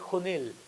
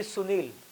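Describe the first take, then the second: First: The name begins with an H sound. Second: The name begins with an S sound. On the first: "they will call me Hunil" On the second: "They don't call me Sunil"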